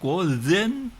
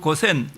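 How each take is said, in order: First: The middle consonant is a voiced z sound. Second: The middle consonant is an unvoiced s sound. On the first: This is how a Japanese speaker says it. "일본 사람들은 주고엔, 그 다음에 고주, 고젠" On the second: This is how a Korean speaker says it. "우리말로서는 그냥 주고엔, 고주, 고센 이렇게 되는데"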